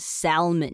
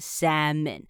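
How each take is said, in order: First: An L sound is pronounced in the middle. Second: No L sound is pronounced in the middle. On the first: The speaker calls it wrong. "很多人很喜欢把它念成salmon，因为它的拼法中间是salmon，会多念一个l" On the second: The speaker calls it right. "我们比较不会念出那个l 啊，我们就是念salmon"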